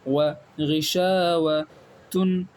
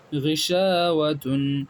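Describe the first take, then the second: First: غشاوتن drawn out very slowly as ghi-sha-wa-tun; slow model reading. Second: Said in the usual way. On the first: Shown as a demonstration. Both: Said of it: "اسی طریقے سے".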